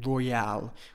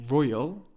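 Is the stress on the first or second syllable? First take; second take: second; first. First: The stress is on the second syllable. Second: The stress is on the first syllable. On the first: The speaker calls it right. "I put the stress on the al" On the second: The speaker calls it wrong. "I don't say royal"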